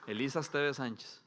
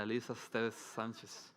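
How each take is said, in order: First: Said in the usual way. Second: Elisa Esteves Sánchez drawn out slowly and softly, leaning on Elisa; slow, savoring the name. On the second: Shown as a demonstration. A father announcing his baby daughter's name, slowly and softly.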